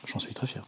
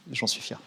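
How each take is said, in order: First: Breathy near-whisper, very soft; whispered pride. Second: Said in the usual way. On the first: Shown as a demonstration. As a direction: murmur it to yourself, proudly.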